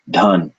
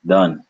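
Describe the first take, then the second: First: Dhan with short vowel and a puff of air; aspirated dh. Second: Dhan said as short dun, no air; unaspirated d. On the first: Teacher giving the word for wealth, aspirated dh in Dhan. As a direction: breathe out after the d in short Dhan. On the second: Teacher giving the gun sound word, airless d in Dhan. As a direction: drop the breath from Dhan, short vowel. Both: Shown as a demonstration. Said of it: "the power of aspiration".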